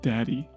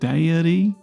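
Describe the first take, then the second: First: The word is said plainly in two syllables. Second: The word is drawn out over extra syllables. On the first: It is the speaker's own accent. The speaker calls it right. "instead of like daddy" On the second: It imitates a West Virginia accent. The speaker calls it wrong. "they just make everything like five syllables"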